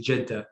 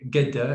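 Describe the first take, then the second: First: It is said with a Saudi accent. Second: It is said with an Egyptian accent. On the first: "Saudi say Jeddah" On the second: "hearing someone from Egypt say Gedda"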